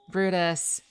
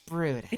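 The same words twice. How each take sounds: First: Louder name call. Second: Said in the usual way. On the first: Real, not acted. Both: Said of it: "Did you have me at, like, A S M R level volume?".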